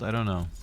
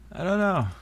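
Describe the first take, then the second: First: Said in the usual way. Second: High, lilting repeat of I don't know; high sing-song. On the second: Real, not acted.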